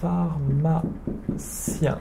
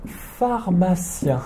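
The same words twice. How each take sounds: First: "Pharmacien" drawn out very slowly and softly; very slow repetition. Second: Slow, careful "pharmacien"; slow model word. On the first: A teacher repeats "Pharmacien" very slowly for students. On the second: A teacher introduces the word "pharmacien" to students. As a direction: stretch out "pharmacien" for learners. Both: Shown as a demonstration. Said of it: "Mazu, le".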